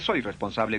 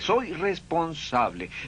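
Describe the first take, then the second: First: It is said flatly, without feeling. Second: It is said warmly, full of feeling. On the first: The speaker calls it wrong. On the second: The speaker calls it right.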